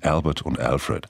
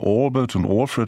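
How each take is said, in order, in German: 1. Die Namen werden auf Englisch ausgesprochen. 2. Die Namen werden auf Deutsch ausgesprochen. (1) "In England sagt man Albert und Alfred" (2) "Wenn wir der Ansicht sind, die werden Albert und Alfred ausgesprochen"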